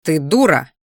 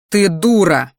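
First: Said in the usual way. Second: Дура stated loud and final; flat statement. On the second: Shown as a demonstration. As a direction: declare her a fool. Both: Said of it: "Нет, не так".

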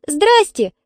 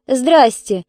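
First: Put-on high-pitched little girl's squeak; squeaked greeting. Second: Hostile greeting with some edge; unfriendly reply. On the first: Svetlanka greets the angry dog owner, squeaking. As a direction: squeak out a timid hello. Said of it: "пискнула Светланка". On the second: Dog owner answers the girl's hello, unfriendly. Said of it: "недобро ответила женщина". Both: A narrator's reading.

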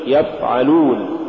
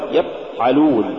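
First: Said in the usual way. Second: يفعلون with the ف stopped short; cut-off fa. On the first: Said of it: "قل يفعلون". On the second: Shown as a demonstration. Teacher warning against an error, cut-off ف in يفعلون. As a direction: choke off the air of ف in يفعلون. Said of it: "ولا تقل".

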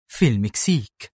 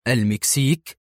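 First: Said in the usual way. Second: Surprised echo, rising at the end; mild narrated astonishment; astonished. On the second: A narrator's reading. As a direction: repeat it as a puzzled question. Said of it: "هتف في دهشة".

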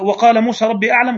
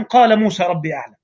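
First: وقال said with the waw, waqala; reading with waw. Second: قال said without any waw, qala; reading without waw. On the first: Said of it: "زي المكي الذي يقول". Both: Shown as a demonstration.

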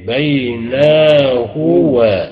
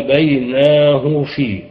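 First: بيناه و drawn out very slowly, ending in a full "huwa"; full form of بيناه و. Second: بيناه في with the pronoun cut to a short "hu"; waw dropped in بيناه. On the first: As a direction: spell out the whole pronoun in بيناه و, loud and slow. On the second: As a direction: run بيناه straight into في, no "wa". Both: Shown as a demonstration. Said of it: "تحذف الواو والياء اضطرارا".

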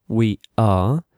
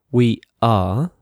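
No difference in how they are said.

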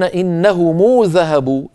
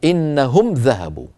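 First: Raised, slow "innahumuu" for إنهم; meem linked with waw. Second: Slow "innahum", closed on m, in إنهم; silent-vowel meem. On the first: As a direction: lengthen a uu after the m of إنهم. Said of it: "الذين يقولون". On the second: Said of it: "سكنوا الميم وصلًا فقالوا إيه؟". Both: Shown as a demonstration.

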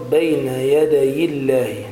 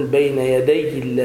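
First: يدي الله drawn slowly with a light single ي, "yadayi-llah"; unforced ya. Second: يدي الله with a forced, doubled ي, "yadayyi-llah"; over-stressed ya. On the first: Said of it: "تشدد الياء". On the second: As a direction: lean too hard on the ي of يدي. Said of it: "لا تتكلف حتى لا، آه، تشدد الياء". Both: Shown as a demonstration.

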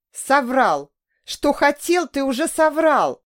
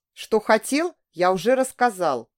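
First: Much higher and louder, crying out; yelling through tears. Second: Said in the usual way. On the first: A narrator's reading. Woman screaming at her lying lover through tears. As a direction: scream it back at him, in tears. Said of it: "орала я сквозь слёзы".

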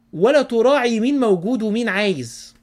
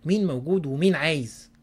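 First: ولا hit loud and high, falling to the end; emphatic stress. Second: Said in the usual way. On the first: Shown as a demonstration. Preacher scolding selfish eaters, ولا loud and falling.

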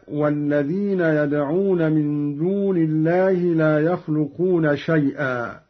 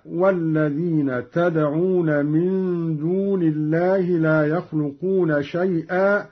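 First: يدعون starts with ya; ya reading. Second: تدعون starts with ta; ta reading. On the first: Teacher recites the verse before Qalun's reading. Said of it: "قرأ قالون بالتاء". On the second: Teacher demonstrates Qalun's reading with ta. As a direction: say تدعون with ta, addressing listeners. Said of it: "بالتاء هكذا". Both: Shown as a demonstration.

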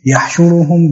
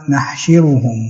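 First: "يحشرهم" opened with a y sound, u after the sheen; variant reading with ya. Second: "نحشرهم" opened with n, short i after the sheen; variant reading with kasra. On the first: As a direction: read "يحشرهم" as yahshuruhum, with ya. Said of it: "بالياء التحتية". ("يحشرهم" بالياء التحتية وضم الشين) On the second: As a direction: read "نحشرهم" as nahshiruhum, with nun. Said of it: "بكسر الشين في جميع القرآن". ("نحشرهم" بالنون وكسر الشين) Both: Shown as a demonstration.

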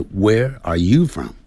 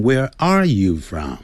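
First: YOU lifted above the other words; slowly, with the weight on YOU; stress on YOU. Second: ARE punched instead of you; slowly, leaning on the word ARE; wrong stress on ARE. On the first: Teacher models the correct question for learners, stress on YOU. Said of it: "这个强调的是you". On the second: Teacher shows learners what to avoid, stress on ARE. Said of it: "不要念成". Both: Shown as a demonstration.

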